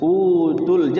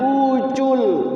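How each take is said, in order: First: The t is released with a little breath. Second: The t sounds close to a ch sound. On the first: The speaker calls it right. "Utul, jangan ucul" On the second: The speaker calls it wrong. "jangan ucul. Kalau c ucul jadinya"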